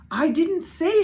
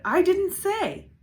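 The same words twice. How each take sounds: First: High, loud protesting shout. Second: Higher, slower insistent shout; slow shouted repeat. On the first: Little sister shouting her defense at Carla. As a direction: blurt it out defensively. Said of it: "she shouted". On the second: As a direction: drag the denial out in protest. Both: A narrator's reading.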